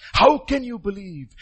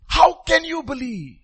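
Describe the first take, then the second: First: "How can you believe?" slow, falling, at normal pitch; slow quieter repeat. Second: Slow pleading question. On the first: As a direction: ask it again, slowly. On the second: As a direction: stretch "How can you believe?" slowly, higher. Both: Real, not acted. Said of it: "repeated question, slow".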